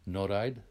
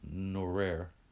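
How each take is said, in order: First: The name is said with Armenian pronunciation. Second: The name is said as an English speaker reads it. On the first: The speaker calls it right. "Let me pronounce this correctly. My family is Armenian" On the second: The speaker calls it wrong. "If you read it on a piece of paper, it would say Norer"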